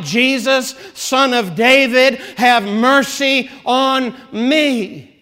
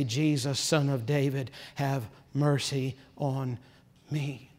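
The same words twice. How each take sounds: First: Loud, slow, desperate cry; a desperate beggar crying out for mercy. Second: Soft, slow, hushed plea; a hushed, drawn-out prayer for mercy; quiet plea. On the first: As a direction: call out the beggar's plea, higher and stretched. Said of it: "he begins crying out". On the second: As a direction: murmur the beggar's cry under the breath. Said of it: "he began to cry out and say". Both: Retold or imitated.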